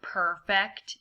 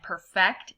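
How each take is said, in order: First: Perfect as PER-fect, not the verb; slow perfect with the weight on PER; stress on first syllable. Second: Perfect as the verb per-FECT; slow perfect with the weight on FECT; stress on second syllable. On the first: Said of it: "make the mistake of saying". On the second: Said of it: "instead of". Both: Shown as a demonstration.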